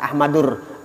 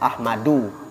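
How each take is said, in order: First: The word ends with an added r sound. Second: The word ends in a vowel, without r. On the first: The speaker calls it wrong. "jangan Ahmadur" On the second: The speaker calls it right.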